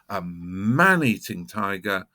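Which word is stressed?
man. The stress falls on man.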